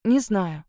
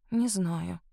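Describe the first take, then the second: First: Firmer, stressing не; girl insisting she doesn't know, firmer; stubborn. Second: Softer, eyes down; girl denying love, softer and shy; shy mumble. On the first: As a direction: dig in your heels. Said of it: "упрямо повторила". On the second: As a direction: say it to the ground, abashed. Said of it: "потупилась я". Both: A narrator's reading.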